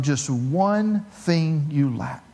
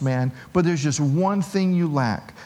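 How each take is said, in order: First: Slow, weighty. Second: Said in the usual way. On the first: Acted. Jesus' words, then repeated plainly.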